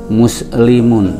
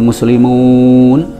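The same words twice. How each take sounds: First: The vowel in the last syllable is short. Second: The vowel in the last syllable is long. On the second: It refers to many Muslims. "bisa tiga, bisa satu juta"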